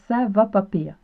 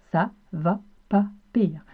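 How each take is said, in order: First: Said in the usual way. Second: «Ça va pas pire» spoken slowly, each word separated, falling on «pas»; slow, careful model phrase. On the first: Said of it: "Au Québec". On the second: Shown as a demonstration. Teacher models «Ça va pas pire» slowly for learners.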